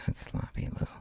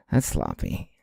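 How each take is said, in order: First: Breathy hushed rebuke to himself; 小声で自分を叱る; whispered scolding. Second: Said in the usual way. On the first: Real, not acted.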